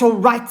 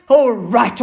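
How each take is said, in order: First: Second sharp, louder snap; snapped again. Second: Sharp, louder snap at the elephant; snapped. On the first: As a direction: repeat it, still irritated. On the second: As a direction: cut him off, irritated. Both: Acted. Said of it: "snapped Hyena".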